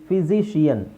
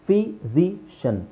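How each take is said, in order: First: The word is said with four syllables. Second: The word is said with three syllables. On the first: The speaker calls it wrong. "Three syllable four syllable ಆಗುತ್ತೆ" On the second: The speaker calls it right. "Three syllable"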